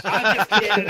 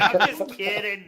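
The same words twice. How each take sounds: First: Laughing. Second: Said in the usual way. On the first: Real, not acted. Teasing players about initiative.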